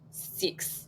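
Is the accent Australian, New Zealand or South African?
South African. It is said in a South African accent.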